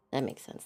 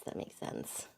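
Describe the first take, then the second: First: Said in the usual way. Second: Breathy whisper of agreement. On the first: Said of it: "repeated quieter". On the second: Real, not acted. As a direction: say it under your breath. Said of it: "repeated unvoiced".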